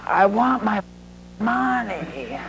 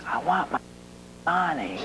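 First: A bit higher, softer, pressing the demand; repeated threat. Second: Much softer, flat demand from a mob boss; quiet menace. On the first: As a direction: repeat it, unmoved and insistent. Mob boss repeating demand. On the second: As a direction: lean in and threaten softly. Mob boss leaning across table. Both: Retold or imitated.

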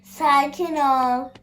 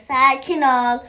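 First: Slow, drawn-out "Sakin ol" stretched gently; slow soothing "Sakin ol" to the startled game character. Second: Loud firm "Sakin ol" as a command; loud "Sakin ol" to the startled game character; firm calming. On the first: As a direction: ease "Sakin ol" out slowly to calm her. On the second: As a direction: snap "Sakin ol" loudly to settle her down. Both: Acted. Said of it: "bir şey yok abla".

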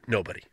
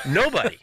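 First: Said in the usual way. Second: Nobody said higher, the whole word punched; insisting Nobody, pitched up for emphasis; emphatic repeat. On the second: Shown as a demonstration. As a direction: hit Nobody hard the second time, higher and firmer. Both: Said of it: "repeats the word for emphasis".

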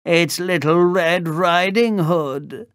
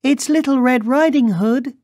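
First: Put-on growly wolf faking a higher girlish voice; wolf posing as girl. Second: Put-on very high, loud little-girl voice. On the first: Wolf at the door pretends to be the girl, raised growl. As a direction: pitch it up in a badly faked girl's voice. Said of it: "growled the wolf". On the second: Girl announces herself at the door, high childlike call. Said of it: "she called". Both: A narrator's reading.

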